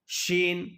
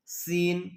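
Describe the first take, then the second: First: شین with a hushing sh, held level; distinct SH sound. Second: سین with a whistling s at the start, held level; whistled S. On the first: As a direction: model شین slowly, opening on sh rather than s. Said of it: "بڑی شین کا تلفظ تھوڑا الگ ہے". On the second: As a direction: model سین slowly with a sharp, whistled s. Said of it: "سٹی کے ساتھ ہے". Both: Shown as a demonstration.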